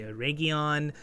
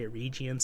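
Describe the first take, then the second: First: Eregion said uh-RAY-gee-on, with a hard g; other pronunciation. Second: Eregion said uh-REE-jee-on, with a soft j sound; one pronunciation. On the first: Reviewer giving the other version, Eregion as uh-RAY-gee-on. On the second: Reviewer giving one common version, Eregion as uh-REE-jee-on. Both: Shown as a demonstration. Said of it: "some people say".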